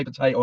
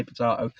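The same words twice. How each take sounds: First: "potato" with the middle said "tay", the American way; pron potato. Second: "potato" with the middle said "tah", po-TAH-to; pron potato. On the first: Vlogger says "potato" the first way, po-TAY-to. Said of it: "you say potato". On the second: Vlogger answers with "potato" the other way, po-TAH-to. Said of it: "I say potato". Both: Shown as a demonstration.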